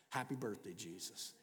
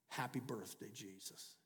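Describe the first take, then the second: The two takes are said the same way.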